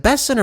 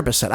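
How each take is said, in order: First: Bessent with the stress on BESS; stress on first syllable. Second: Bessent with the stress on the final SENT; stress on second syllable. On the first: Host unsure of the official's name, Bessent stressed on BESS. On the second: Host trying the other version of the name, Bessent stressed on SENT. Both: Shown as a demonstration. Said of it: "is it Bessent or Bessent?".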